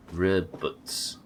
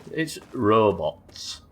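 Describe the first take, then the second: First: "Robots" said as "REB-uts"; "Robots" as "REB-uts", second vowel short; clipped-vowel "Robots". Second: "robots" drawn out as "ROH-bots"; "robots" as a slow, full "ROH-BOTS"; corrected "robots". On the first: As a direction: say "Robots" with both vowels reduced, like "rebbuts". Mimics the synthetic voice's pronunciation. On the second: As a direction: slowly sound out "robots" with full O vowels. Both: Shown as a demonstration.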